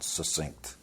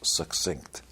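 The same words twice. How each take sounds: First: It does not begin like 'success'. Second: It begins like the word 'success'. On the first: The speaker calls it wrong. "not succinct" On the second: The speaker calls it right. "It's like success, succinct"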